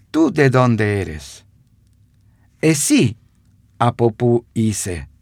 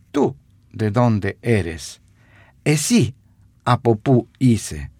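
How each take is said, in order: Both takes have the same delivery.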